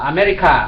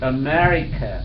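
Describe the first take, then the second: First: The final vowel is an open ah sound. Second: The final vowel is a weak uh sound. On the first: The speaker calls it wrong. "아메리카 그렇게 하는데" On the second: The speaker calls it right. "끝에 나오는 A는 보통 어로 발음을 해요"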